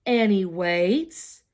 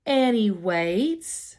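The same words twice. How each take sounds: The two takes are said the same way.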